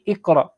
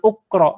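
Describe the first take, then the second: First: The word begins with an i vowel. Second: The word begins with an u vowel. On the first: The speaker calls it right. "tapi iqra" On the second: The speaker calls it wrong. "jangan uqra ya"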